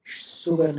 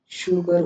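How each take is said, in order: First: "शुगर" mispronounced as sugar with plain s; wrong s sound. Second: "शुगर" drawn out slowly with sh; correct sh sound. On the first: Teacher showing the mistake, s-for-sh mispronunciation. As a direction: say "शुगर" as soo-gar. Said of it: "शुगर नहीं". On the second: Teacher giving the right sugar, slow sh pronunciation. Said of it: "शुगर होता है". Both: Shown as a demonstration.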